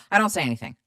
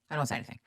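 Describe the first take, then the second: First: Said in the usual way. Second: "I don't say anything" said again much softer, under the breath; softer repeat. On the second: Shown as a demonstration. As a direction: drop the repeat to a murmur.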